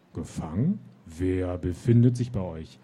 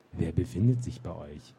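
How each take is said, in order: First: Booming, louder questioning voice; thundering voice. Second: Mild mocking echo of the booming voice; mocking imitation. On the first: Acted. Gatekeeper demands to know who the knights bring, booming. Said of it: "donnerte die Stimme". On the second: Captain mocks the gatekeeper to amuse his knights, mild mimicry. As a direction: ape the voice back, making fun of it. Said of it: "äffte der Hauptmann die Stimme leise nach".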